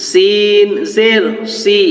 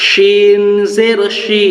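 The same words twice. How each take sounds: First: সিন জের সি with a thin, dental s sound. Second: শিন জের শি with a full palatal sh sound. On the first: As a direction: say সি with a light hissing s. (সি পাতলা দন্ত্য স উচ্চারণে) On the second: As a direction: say শি with a broad sh. (শি তালব্য শ উচ্চারণে) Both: Shown as a demonstration. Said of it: "সেটা আপনারা ভালো করে মনোযোগ দিয়ে শুনুন".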